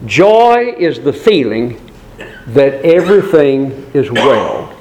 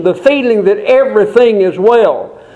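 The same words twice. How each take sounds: First: Said in the usual way. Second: Higher, disbelieving echo of the phrase; incredulous objector. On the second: Acted. A doubting listener questioning the preacher, higher and disbelieving. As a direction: throw the words back in disbelief.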